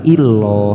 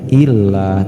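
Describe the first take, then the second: First: The L is thick, with a dark O-like vowel. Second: The L is thin, with a light A vowel. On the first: The speaker calls it wrong. "bukan illoh" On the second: The speaker calls it right. "disebut tarkik atau tipis cara bacanya"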